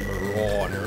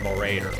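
First: The middle syllable sounds like 'rawd'. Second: The middle syllable sounds like 'raid'. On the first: The speaker calls it right. "it's supposed to be Marauder, because it's not a raider, it's a Rauder" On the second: The speaker calls it wrong. "I've always pronounced it"

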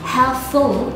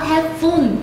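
First: The last syllable has an English dark l ending. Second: The last syllable sounds like Vietnamese 'phun'. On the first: The speaker calls it right. "Đó chính là từ helpful" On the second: The speaker calls it wrong. "not helpful"

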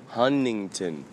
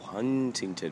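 First: The middle T sound is dropped. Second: The middle T sound is clearly pronounced.

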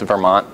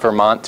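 First: The final T is dropped. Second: The final T is clearly pronounced. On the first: The speaker calls it right. "I don't ever pronounce the T at the end of Vermont" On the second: The speaker calls it wrong. "That's not Vermont"

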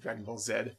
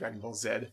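First: Z is said the Canadian way, as zed. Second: The same.

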